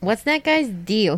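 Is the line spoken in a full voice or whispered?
full. It is spoken in a full, normal voice. "Wait, was that whispering?"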